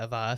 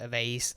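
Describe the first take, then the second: First: It is said the British way. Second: It is said the American way.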